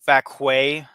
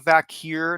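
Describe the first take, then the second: First: The surname is said with a French-sounding ending. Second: The surname is said in a plain English way. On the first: The speaker calls it wrong. "not not Vakwe, like uh, like Nikki Bella said" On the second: The speaker calls it right. "Stephanie Vakir"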